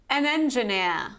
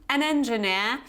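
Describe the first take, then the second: Both takes have the same delivery.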